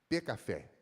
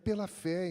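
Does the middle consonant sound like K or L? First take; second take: K; L. First: The middle consonant sounds like a k. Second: The middle consonant sounds like an l. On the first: The speaker calls it wrong. "ele falava pecafé" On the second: The speaker calls it right. "ele não falava pela fé"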